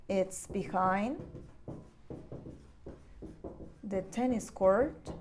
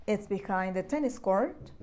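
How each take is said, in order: First: "It's behind ... the tennis court" said slowly and softly, with a pause after "behind"; slow and soft, broken into chunks for learners; slow modelling. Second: Said in the usual way. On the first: Shown as a demonstration. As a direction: spell it out slowly and softly for the class.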